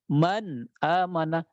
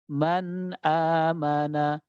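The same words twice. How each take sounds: First: The n sound is cut off abruptly. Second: The n sound flows on with moderate length. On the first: The speaker calls it wrong. "kita tidak boleh membaca man amana" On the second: The speaker calls it right. "Dia mengalir suaranya, tapi suaranya itu sedang ngalir"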